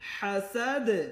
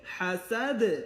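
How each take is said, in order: No difference in how they are said.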